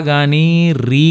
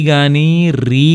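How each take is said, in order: Both takes have the same delivery.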